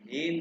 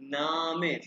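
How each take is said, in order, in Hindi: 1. यह अंग्रेज़ी 'name' जैसा सुनाई देता है, एक शब्दांश। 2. यह 'nahmeh' जैसा सुनाई देता है, दो शब्दांश। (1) "ये नेम नहीं है" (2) "हम जर्मन पढ़े तो ये हम पढ़ेंगे नामे"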